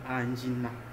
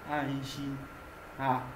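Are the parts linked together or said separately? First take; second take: linked; separated. First: The two parts run together as one word. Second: The two parts are said separately with a break. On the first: "on essaye de faire un rapprochement et ça donne Anjina" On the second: "s'il faut prononcer ça séparément"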